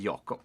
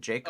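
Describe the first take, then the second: First: The name is pronounced the Swedish way. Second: The name is pronounced the English way. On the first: "Sweden we say we say Jakob" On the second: "I'm speaking Eng- English, so I say Jacob"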